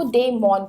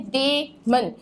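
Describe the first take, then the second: First: डेमन as the teacher's corrected form; simple pronunciation. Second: डेमन said "DAY-men", in two parts; wrong pronunciation. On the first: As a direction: say डेमन simply, without "men" ending. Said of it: "आप इसका simple pronounce कर सकते हो". (डेमन का सरल सही उच्चारण) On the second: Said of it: "जो कि गलत प्रोनाउंसिएशन है". (डेमन का गलत उच्चारण, "डे-मेन") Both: Shown as a demonstration.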